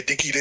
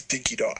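First: "Dinky D" with a short "D" like the letter D; game pronunciation. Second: "Dinky Di" with the Australian long "Di" rhyming with "die"; Australian pronunciation. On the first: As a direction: say "Dinky D" ending on the letter sound "dee". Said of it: "so Dinky D to Dinky Di". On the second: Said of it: "the pronunciation of the dog is". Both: Shown as a demonstration.

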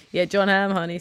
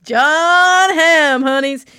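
First: Said in the usual way. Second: Higher and louder, swooning over a crush; gushing excitement. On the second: Real, not acted. To her co-host, swooning over Jon Hamm, higher and louder. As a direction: swoon over the name like a fan.

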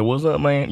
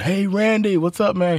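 First: Lightly Southern, cool reply; laid-back Southern greeting. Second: Put-on higher, eager kid calling out; eager fan greeting. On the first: Retold or imitated. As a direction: shrug it off, Southern and easy. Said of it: "He got that Southern accent". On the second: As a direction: call out to your hero. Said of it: "he's like".

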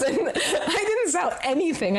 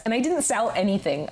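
First: High, laughing through the words. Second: Said in the usual way. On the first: Real, not acted. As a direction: laugh at your own failure. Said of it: "repeated plainly before". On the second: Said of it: "repeated with laughter".

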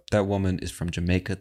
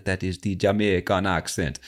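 First: Said in the usual way. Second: Imitated Jamaican accent. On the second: Names the accent while imitating it.

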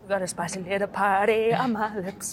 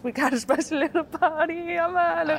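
First: Lips too numb to speak clearly; slurring through numb lips; numb mouth. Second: Repeated higher, numb lips; slurring, lips buzzing with spice; numb mouth. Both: Real, not acted. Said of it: "My mouth is numb".

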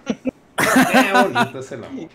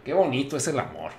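First: High, slow, laughing swoon. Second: Said in the usual way. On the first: Pretend. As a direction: laugh through it, drawn out and high.

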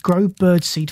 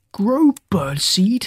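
First: Said in the usual way. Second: Slow, drawn-out disbelief with a rising end; dragged-out, disgusted question; disgusted groan. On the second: A narrator's reading. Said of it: "he groaned in disgust".

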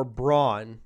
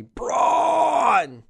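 First: Said in the usual way. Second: High, drawn-out roar of BRAUN; booming name roar. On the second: Acted. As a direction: bellow it long, like a wrestling hype call. Mock correction, imitating a wrestler's roar.

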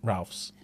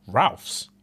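First: "Ralph's." with a falling, matter-of-fact tune; flat confirming Ralph's. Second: "Ralph's?" with a rising, doubtful tune; questioning Ralph's. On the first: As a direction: settle it: "Ralph's." said low and final. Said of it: "I said". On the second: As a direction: ask "Ralph's?" as if you can't believe it. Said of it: "She said". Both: Retold or imitated.

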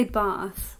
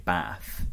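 First: BATH with a long drawn-out 'ah' vowel; southern Bath. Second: BATH with a short, flat 'a' as in trap; northern short A. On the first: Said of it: "'Cause you would say". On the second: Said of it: "a short A sound". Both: Shown as a demonstration.

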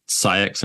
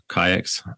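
First: "Saïx" begun with an s sound; soft-c pronunciation. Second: "Kayaks" begun with a hard k; hard-k pronunciation. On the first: Host offering one way to say the name, "Saïx" with soft s. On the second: Host offering another way to say the name, "Kayaks" with hard k. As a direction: say "Kayaks" with a k sound at the start. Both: Shown as a demonstration. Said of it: "depending on how you pr-, pronounce it".

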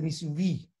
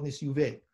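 First: "Nisyuvi" with final vowel as in vee; pronunciation ending VI. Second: "Nisyuve" with final vowel as in vay; common pronunciation, ending VE. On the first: Teacher passing on his master's form, "Nisyuvi" ending in VEE. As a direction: end "Nisyuvi" on an EE sound. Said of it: "He said Nisyuvi". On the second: Teacher giving most people's form, "Nisyuve" ending in VE. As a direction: end "Nisyuve" on an E sound. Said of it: "Most people call it Nisyuve". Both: Shown as a demonstration.

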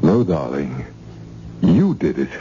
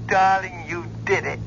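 First: "You" leaps up, then "did it" falls away; stress on YOU. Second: "did" stressed, low falling praise; low-pitched "you DID it", landing on "did". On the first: Correcting darling on who did it, stress on YOU. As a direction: punch YOU to hand back the credit. Hands the credit back to her. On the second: Crediting darling with the success, stress on DID. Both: Acted.

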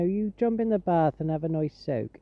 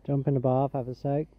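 First: Put-on West Country farmer host accent; farmer's accent. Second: Said in the usual way. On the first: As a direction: advise kindly in a Gloucestershire farmer's accent. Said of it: "traditional farmer's accent".

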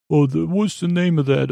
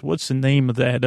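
First: Higher, puzzled friend impression; Scooter voice. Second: Said in the usual way. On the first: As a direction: do a higher confused buddy voice. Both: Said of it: "that's my Scooter voice".

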